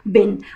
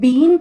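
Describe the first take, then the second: First: The vowel is short, like in 'bin'. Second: The vowel is long, like in 'bean'. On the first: The speaker calls it right. "Correct pronunciation है वो है बिन" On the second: The speaker calls it wrong. "बहुत सारे लोग इसको बीन pronounce करते हैं, that is wrong"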